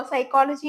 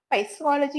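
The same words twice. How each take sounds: First: സൈക്കോളജി said with a silent p, starting on s; the right way to say സൈക്കോളജി; correct psychology. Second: പൈസോളജി with the p sounded out; the mistaken letter-by-letter പൈസോളജി; wrong spelling-pronunciation. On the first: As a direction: say സൈക്കോളജി as sy-ko-lo-ji, no p sound. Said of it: "പൈസോളജി എന്നൊന്നും പറയത്തില്ല". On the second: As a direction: say പൈസോളജി pronouncing the silent p at the start. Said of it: "എന്നൊന്നും പറയത്തില്ല". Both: Shown as a demonstration.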